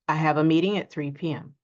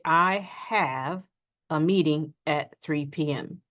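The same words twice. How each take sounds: First: The words run together with small words reduced. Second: Each word is said separately and fully. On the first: The speaker calls it right. "We simply say" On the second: The speaker calls it wrong. "So we don't often say"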